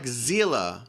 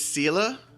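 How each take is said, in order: First: The name begins with a Z sound. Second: The name begins with an S sound. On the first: "like a Z" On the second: "Have we been saying her name wrong all this time?"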